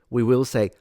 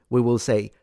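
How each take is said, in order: No difference in how they are said.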